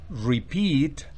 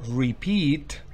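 The two takes are said the same way.

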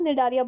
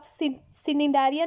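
First: The word begins with a silent C. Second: The word begins with a sounded C. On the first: The speaker calls it right. "सी क्या हो गया? Silent है, इसको आप निडारिया बोलोगे" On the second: The speaker calls it wrong. "यहाँ पे भी आप सिनिडारिया नहीं बोलोगे"

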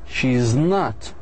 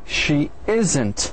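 First: Is not is said as two full words. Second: Is not is contracted into one word.

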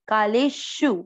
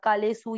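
First: The last syllable begins with a sharp sh. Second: The last syllable begins with a plain s. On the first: The speaker calls it right. "श षटकोण पे थोड़ा तेज बोलना है" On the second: The speaker calls it wrong. "सु कोई नहीं बोलना"

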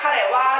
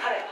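First: The word is said fully and strongly. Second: The word is said very lightly, almost voiceless.

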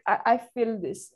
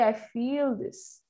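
First: Said fast, with a short vowel like fill. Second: Said carefully, with a long vowel in feel. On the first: The speaker calls it wrong. "even this feel sometimes becomes like fill. I feel when you're speaking fast" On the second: The speaker calls it right. "So it has to be I feel this"

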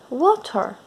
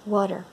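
First: It is said in a non-American accent. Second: It is said in an American accent.

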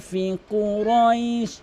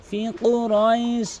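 Both takes have the same delivery.

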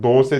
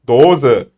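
First: The middle consonant is a hissing s sound. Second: The middle consonant is a buzzing z sound. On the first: The speaker calls it wrong. "O yüzden dose değil" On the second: The speaker calls it right.

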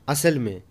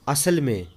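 No difference in how they are said.

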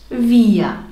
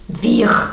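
First: The R is a vowel sound like A. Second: The R is a clear consonant sound. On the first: The speaker calls it right. "du sagst wir. Also sprichst du A aus und nicht R" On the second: The speaker calls it wrong. "Du sagst nicht wir"

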